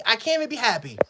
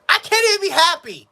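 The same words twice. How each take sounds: First: Softer, dropping into defeat; deflated. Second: Raised, higher and frustrated; exasperated outburst. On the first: Fan to viewers, worn out by the team, deflated and softer. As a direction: let it sink out of you, beaten. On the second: Fan to viewers after a sloppy touchdown, exasperated outburst. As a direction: throw it out in disbelief. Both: Real, not acted.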